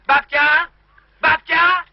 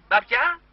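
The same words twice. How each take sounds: First: Louder, higher shout into the receiver; calling loudly. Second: Said in the usual way. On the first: Real, not acted. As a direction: yell down a bad phone line for grandma. Shouting over a bad phone line. (głośne wołanie do słuchawki)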